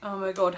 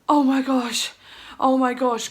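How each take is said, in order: First: It sounds hopeless and deflated. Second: It sounds excited and hopeful.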